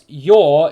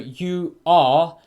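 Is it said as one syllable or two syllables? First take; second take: one syllable; two syllables. First: It is contracted into a single syllable. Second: It is said as two separate syllables. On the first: "your is one syllable" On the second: "you are is uh, two syllables"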